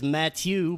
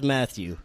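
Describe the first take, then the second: First: The name is pronounced the French way. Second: The name is pronounced the English way. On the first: "The French pronunciation is Matthew" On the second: "everyone just says Matthew"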